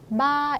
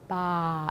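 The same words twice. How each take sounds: First: The tone stays level and plain. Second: The tone falls downward. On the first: It means the number three. "그냥 마 이렇게 읽으면요" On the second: It means grandmother. "이거 내리는 성조 읽으면은"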